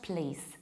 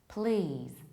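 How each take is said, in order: First: A short vowel and a voiceless S ending. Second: A long vowel and a voiced Z ending. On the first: The speaker calls it wrong. "with short A, relatively short A, and S at the end" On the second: The speaker calls it right. "E is much longer and Z"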